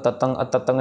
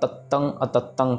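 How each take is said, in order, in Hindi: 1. t की आवाज़ छोटी है, इसमें कोई अतिरिक्त दबाव नहीं। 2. t की आवाज़ दोहरी है और ज़ोर से दबाई जाती है। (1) "नहीं करना" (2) "कहना है, प्रेशर दे के कहना है"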